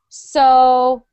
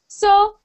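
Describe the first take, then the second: First: The pitch falls down on the word. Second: The pitch does not fall on the word. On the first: The speaker calls it right. "We want to keep it down or we want to make it swoop" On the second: The speaker calls it wrong. "sometimes you say it like this"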